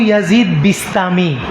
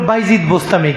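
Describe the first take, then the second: First: The name is said as Yazid Bistami. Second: The name is said as Baijid Bostami. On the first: The speaker calls it right. "ওনার নাম হলো Abu ইয়াজিদ বিস্তামি" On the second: The speaker calls it wrong. "সব সব ভুল নাম উচ্চারণ করে"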